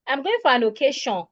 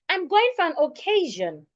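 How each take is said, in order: First: Occasion is stressed off its second syllable. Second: Occasion is stressed on its second syllable. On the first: The speaker calls it wrong. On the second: The speaker calls it right.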